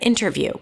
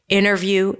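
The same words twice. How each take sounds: First: The T after the N is clearly pronounced. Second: The T after the N is dropped. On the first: "instead of" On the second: "people tend to drop it like"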